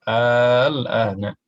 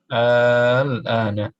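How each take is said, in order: No difference in how they are said.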